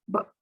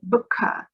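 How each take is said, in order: First: The word ends cleanly on the final consonant. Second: An extra vowel sound follows the final consonant. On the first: The speaker calls it right. "just book" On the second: The speaker calls it wrong. "We do not want to say booka"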